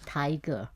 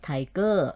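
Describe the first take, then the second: First: The stress is on the first syllable. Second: The stress is on the second syllable. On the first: This is the English way of saying it. "in English, most of the words stress on the first word, like like tiger" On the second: This is the Thai way of saying it. "But in Thai we say tiger"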